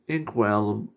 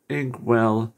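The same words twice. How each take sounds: The two takes are said the same way.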